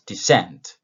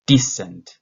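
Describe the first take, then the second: First: "descent" modelled loudly, second syllable stressed and falling. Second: "decent" with a loud, punched first syllable; stress on first syllable. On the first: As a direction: say "descent" for repeating, weight on the end. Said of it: "after me". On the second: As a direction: hit the start of "decent" hard, let the rest drop. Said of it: "the stress at the beginning". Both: Shown as a demonstration.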